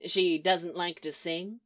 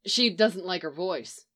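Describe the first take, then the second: First: "She doesn't like to sing?" asked with a rise at the end; rising question. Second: "She doesn't like her voice." settled with a falling end; falling statement. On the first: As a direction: stress "She", then lift "sing?" up as a real question. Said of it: "question mark". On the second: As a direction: stress "She", let "voice" drop as a plain fact. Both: A narrator's reading.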